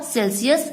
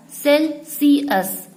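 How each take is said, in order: First: Said in the usual way. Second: Celsius slowly split as "Cel-si-us"; "Celsius" drawn out, a gap after each syllable. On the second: Shown as a demonstration. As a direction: say Celsius in three slow, separate syllables. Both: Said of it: "pronounced as Celsius".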